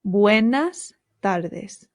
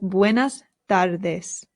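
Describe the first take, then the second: Both takes have the same delivery.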